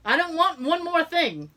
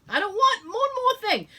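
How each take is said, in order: First: Exasperated protest. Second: Much higher, near-whining repeat; higher exasperated wail. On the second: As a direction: wail it, fed up. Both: Retold or imitated.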